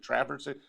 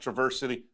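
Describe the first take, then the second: First: The first vowel is short, as in fan. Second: The first vowel is not short. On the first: The speaker calls it right. "The A is short, as in fan" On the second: The speaker calls it wrong.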